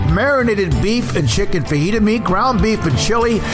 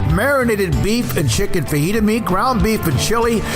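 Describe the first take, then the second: No difference in how they are said.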